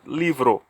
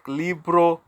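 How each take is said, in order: First: The middle consonant is a soft V-like sound. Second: The middle consonant is a hard B sound. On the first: The speaker calls it right. "So the B sounds like V" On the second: The speaker calls it wrong. "it's not pronounced like libro"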